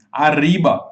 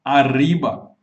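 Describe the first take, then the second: First: Arriba with the R trilled, tongue tip fluttering; rolled R. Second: Arriba said again with a trilled, fluttering R; rolled R. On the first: Teacher models Arriba for students to repeat, trilled R. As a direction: roll the R in Arriba like a Mexican speaker. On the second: Teacher repeats Arriba so students copy it, trilled R. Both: Shown as a demonstration. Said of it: "ela oscila quando você fala arr".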